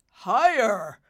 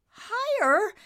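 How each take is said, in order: First: Loud, falling, weighty HIGHER; emphatic prompt. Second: Very high, rising HIGHER; incredulous echo. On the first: Father prodding Nimbus to guess, loud and firm. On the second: Nimbus echoing his father, incredulous. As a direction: squeak HIGHER as an amazed question. Son echoes in disbelief. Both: Acted.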